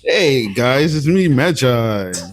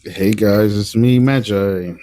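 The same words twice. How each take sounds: First: It is said with more enthusiasm. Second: It is said with little enthusiasm.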